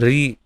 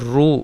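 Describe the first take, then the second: First: The syllable is said as 'ree'. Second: The syllable is said as 'roo'. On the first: This is how most regions say it. "बाकी सब जगह पे इसको री उच्चारण करते हैं" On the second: This is how Odisha and Gujarat say it. "Orissa में भी इसको रू उच्चारण होता है"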